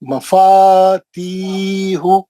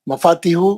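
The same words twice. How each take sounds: First: The vowel in 'ti' is long. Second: The vowel in 'ti' is short. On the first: The speaker calls it right. "ती खींचना है, दो हरकत" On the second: The speaker calls it wrong. "गलत है"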